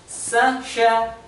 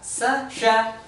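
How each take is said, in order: Both takes have the same delivery.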